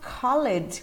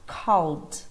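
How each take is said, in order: First: The ending adds a vowel before d, two syllables. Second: The ending is a bare d sound, one syllable. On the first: The speaker calls it wrong. "E não called, como a gente ouve muita gente dizer" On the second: The speaker calls it right. "É só o som do D mesmo"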